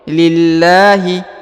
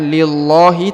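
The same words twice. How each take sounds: First: The L sound is said thin and light. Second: The L sound is said thick and heavy. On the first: The speaker calls it right. "maka ini dibaca tipis ya" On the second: The speaker calls it wrong. "bukan lillahi"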